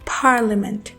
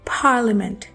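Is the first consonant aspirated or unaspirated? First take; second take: aspirated; aspirated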